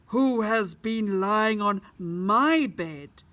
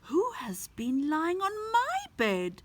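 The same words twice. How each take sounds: First: It is said in a very loud voice. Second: It is said in a medium-level voice. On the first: A big character is speaking. "he asked in a very loud voice" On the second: A medium-sized character is speaking. "she asked in a medium-sized voice"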